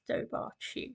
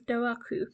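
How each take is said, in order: First: The middle is said with a clear 'b' sound. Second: The middle is said with no 'b' sound. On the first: The speaker calls it wrong. "I'm very much phonetic when I read, so I used to read it as Dobarchu" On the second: The speaker calls it right. "the bit I read as Dobar is either Joa or Do. I think it's Doa"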